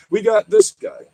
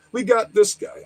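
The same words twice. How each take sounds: First: High, louder "this guy"; excited. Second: Said in the usual way. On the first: Real, not acted. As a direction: call it out, pumped up. Excited exclamation.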